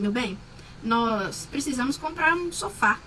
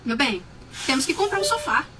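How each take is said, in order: First: It is said in a calm, gentle tone. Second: It is said in an aggressive tone.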